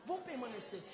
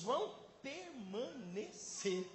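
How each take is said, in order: First: Said in the usual way. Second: "vão permanecer" slowly, syllable by syllable; emphatic, drawn out. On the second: Real, not acted. Preacher promising lasting fruit, "permanecer" broken into slow syllables. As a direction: stretch out each syllable of "permanecer".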